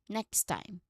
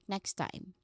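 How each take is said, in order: First: The two T sounds merge into one smooth T. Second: The two T sounds merge into one smooth T.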